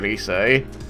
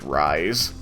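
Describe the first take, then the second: First: It is said as two syllables, ree-seh. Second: It sounds like the English word 'rise'. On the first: It is the traditional Japanese name. The speaker calls it right. "in even in the English version they say Risei" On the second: It is read the way it is spelled. The speaker calls it wrong. "It's spelled that way"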